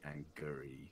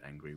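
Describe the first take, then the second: First: It has an extra stressed e sound, three syllables. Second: It is said plainly with two syllables.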